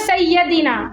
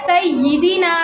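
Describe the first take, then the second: First: The long vowel is shifted toward e. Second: The long vowel is a pure ee sound. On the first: The speaker calls it wrong. "ये भी माजूल में ही आता है" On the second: The speaker calls it right. "इसका मारूफ तरीका क्या है"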